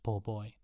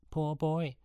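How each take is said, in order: First: Said in the usual way. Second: Higher, sing-song mocking of poor boy; mocking echo. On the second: A narrator's reading. A hint of taunting. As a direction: boys taunting Sean, mimicking Jenny's pity. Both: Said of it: "mocked the boys again".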